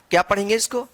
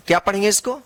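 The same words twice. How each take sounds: The two takes are said the same way.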